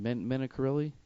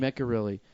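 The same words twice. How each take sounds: First: Menacarelli said with an extra a, Men-a-ca-relli, guessed; unsure mispronunciation. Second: Mencarelli said as three tight syllables, Men-ca-relli, no extra a; corrected pronunciation. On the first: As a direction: stumble into Menacarelli with a questioning lift. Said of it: "how do you say Dave's last name?". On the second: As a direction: repeat Mencarelli firmly, matching the correction. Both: Shown as a demonstration.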